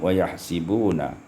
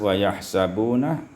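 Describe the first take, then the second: First: The vowel after the 's' is 'i'. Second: The vowel after the 's' is 'a'.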